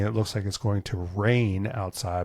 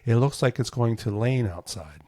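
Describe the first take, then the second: First: The R sounds are pronounced clearly. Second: The R sounds are pronounced in a distorted way. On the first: The usual way people say it. "instead of saying" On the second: A child who cannot say R says it. "my brother would say"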